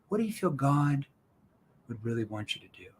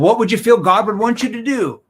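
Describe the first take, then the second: First: It is said in a soft, concerned tone. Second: It is said in a pushy, confrontational tone. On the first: The speaker cares about the listener's family. The speaker calls it right. "if I lean in" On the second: The speaker is pressuring the listener. The speaker calls it wrong. "that's more in your face"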